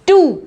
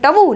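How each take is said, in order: First: No 'w' sound follows the 't'. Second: A 'w' sound follows the 't'. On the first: The speaker calls it right. "नहीं इसको बोलेंगे हम टू" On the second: The speaker calls it wrong. "ट और डब्ल्यू की भी आवाज आ रही है"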